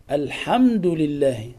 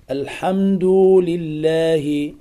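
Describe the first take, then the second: First: "الحمد لله" with a short u on the dal; short damma. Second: "الحمد" ending in a long oo before "لله"; damma stretched to waw. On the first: Teacher gives the correct reading, short u ending "الحمد". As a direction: keep the final u of "الحمد" brief. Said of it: "ضم فقط فوق حرف الدال". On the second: Teacher shows a common error, "الحمد" with long final oo. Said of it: "يأتي بواو بدلا عن الضم". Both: Shown as a demonstration.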